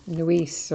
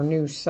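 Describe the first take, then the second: First: Neuse, slowly tried one way; slow, tentative take on Neuse; alternative name pronunciation. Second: Noose, slowly offered as the other way; slow, tentative take on Noose; alternative name pronunciation. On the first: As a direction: try out one reading of Neuse, unsure. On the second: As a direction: offer Noose as a second guess. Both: Shown as a demonstration. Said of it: "which way is the right way to pronounce it".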